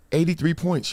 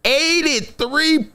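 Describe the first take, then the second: First: Said in the usual way. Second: "Eighty-three" drawn out slowly and higher; emphatic repeat. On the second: Shown as a demonstration. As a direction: land "Eighty-three" slow and high, one syllable at a time. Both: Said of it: "I'ma say it again".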